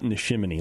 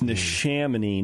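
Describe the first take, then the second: First: The second syllable sounds like 'shim'. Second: The second syllable sounds like 'sham'. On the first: The speaker calls it wrong. "not Nishimini" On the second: The speaker calls it right. "It's Nishamini, like ShamWow"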